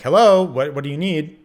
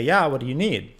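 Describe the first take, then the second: First: Loud, high call through the door; louder yell. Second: Calling out through the door, somewhat louder; retold yell. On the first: Retold or imitated. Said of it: "So I yell it again". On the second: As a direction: call back from the shower. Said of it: "I yell back and I say".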